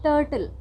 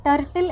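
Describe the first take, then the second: First: "ടേർട്ടിൽ" with a long er vowel; correct pronunciation. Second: "ടർട്ടിൽ" with a short vowel and sounded r; wrong pronunciation. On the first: Host showing what to say instead, pronounced correctly. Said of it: "എന്ന് പറയുക". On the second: Host showing what not to say, mispronounced. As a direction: say "ടർട്ടിൽ" as tur-r-til. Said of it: "എന്ന് പറയാതെ". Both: Shown as a demonstration.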